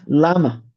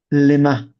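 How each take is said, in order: First: Lama with an open "ah" in the first syllable; clearly shown reading "Lama", first vowel wide. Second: Lema with a short, light first vowel, "li-MA"; clearly shown reading "Lema", first vowel reduced. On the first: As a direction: say Lama, stressed LAH-ma. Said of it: "you can pronounce it Lama". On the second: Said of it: "But you can pronounce it Lema". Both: Shown as a demonstration.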